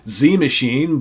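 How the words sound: The letter is said as American 'zee'. The speaker calls it wrong. "for those here in the States, that is a Z, right? You would say Z Machine"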